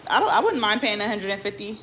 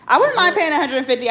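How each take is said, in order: First: Said in the usual way. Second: Wouldn't punched higher and louder; stress on wouldn't. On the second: Shown as a demonstration.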